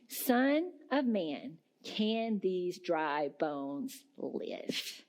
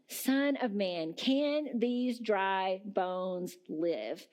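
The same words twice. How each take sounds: First: Slow, weighty, falling at the end; grave, deliberate reading of God's question; slow solemn question. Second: Slow, rising at the end like a real question; searching, slow repeat with a rising end; slow question again. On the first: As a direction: let each word land slowly. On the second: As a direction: ask it slowly and let it hang. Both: Shown as a demonstration. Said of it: "Hear that again".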